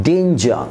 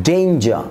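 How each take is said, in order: No difference in how they are said.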